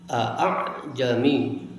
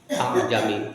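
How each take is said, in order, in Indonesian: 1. Hamzah kedua dibaca sebagai hentian glotal penuh. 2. Hamzah kedua menjadi vokal pendek. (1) "Bacaan yang pertama tahqiqil hamzah" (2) "tanpa alif"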